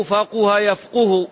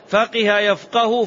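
First: فقه يفقه said slowly as "faquha yafquhu"; damma on qaf. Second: فقه يفقه said "faqiha yafqahu", high and slowish; kasra then fatha. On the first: Teacher recapping the second verb, فقه يفقه slowly pronounced "faquha yafquhu". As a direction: give both فقه and يفقه a "qu". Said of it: "بالضم". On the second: Teacher recapping the first verb, فقه يفقه pronounced "faqiha yafqahu". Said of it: "فقه بالكسر، يفقه بالفتح". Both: Shown as a demonstration.

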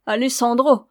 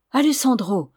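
First: Loud, raised mocking repeat; scornful echo. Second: Raised, louder proud exclamation. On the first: Signora echoing Ramona's lover's name, scornfully. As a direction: throw the name back with contempt. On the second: Ramona answering the signora's threat, proudly. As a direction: declare the name with pride. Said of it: "reprit fièrement la jeune fille". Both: A narrator's reading.

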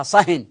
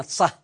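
First: صهن said "sahin", with a final n; صهن ending in a clear nun; tanween added. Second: Said in the usual way. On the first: Shown as a demonstration. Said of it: "فإنه يقال فيها". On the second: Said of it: "فإنه يقال فيها صهن".

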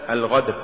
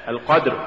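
First: القدر softened to الغدر with a flowing gh; wrong gh for q. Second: القدر with a firm stopped q; careful القدر with a strong qaf; correct qaf. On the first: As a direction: demonstrate the error as الغدر. (القاف غينًا خطأً في الغدر) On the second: (القدر بقاف شديدة) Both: Shown as a demonstration. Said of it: "تقرأ لحنا".

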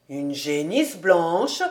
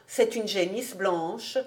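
First: Slow, lower voice, rising on "blanche"; drawn-out question with "blanche" going up; echo question. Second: Said in the usual way. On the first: A narrator's reading. Man echoes girl as question.

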